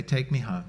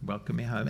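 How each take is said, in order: First: A low, soft plea to be taken home. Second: Even softer and low, lifting gently on home; softer plea, rising. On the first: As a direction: ask quietly, like a child coming home. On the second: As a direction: let it fade almost to a breath, rising at the end. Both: Retold or imitated. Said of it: "run into his arms and say".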